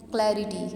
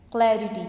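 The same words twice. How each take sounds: First: क्लैरिटी repeated less forcefully, front-stressed; stress on first syllable. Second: क्लैरिटी with loud CLA, falling away; stress on first syllable. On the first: Teacher repeating the example for students, first syllable of क्लैरिटी stressed. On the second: Teacher giving students an example, first syllable of क्लैरिटी stressed. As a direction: punch क्लै and let रिटी drop in क्लैरिटी. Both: Shown as a demonstration. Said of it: "first one syllable पे आएगा".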